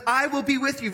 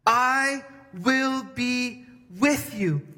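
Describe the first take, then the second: First: Said in the usual way. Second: "I will be with you" drawn out slowly, each word given weight; a slow, solemn "I will be with you", every word pressed; slow weighty promise. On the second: Shown as a demonstration. God's promise quoted twice.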